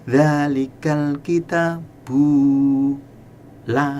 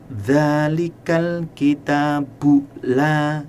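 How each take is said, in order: First: The vowel of 'bu' is lengthened. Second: The vowel of 'bu' is short. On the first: The speaker calls it wrong. "Jangan dzalikal kitabu la. Nah, salah" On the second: The speaker calls it right. "bu pendek"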